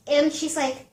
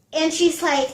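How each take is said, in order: Both takes have the same delivery.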